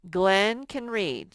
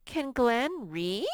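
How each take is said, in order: First: Said in the usual way. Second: Can Glenn read? asked with a rising end; slow teacher question tune; questioning rise. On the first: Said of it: "So that's just a statement". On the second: Shown as a demonstration. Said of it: "we're gonna put a question mark".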